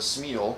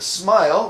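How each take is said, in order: First: The vowel sounds like 'ee'. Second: The vowel sounds like 'eye'. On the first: The speaker calls it wrong. "I always for years thought it was a smeal" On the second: The speaker calls it right. "but it apparently is a smile"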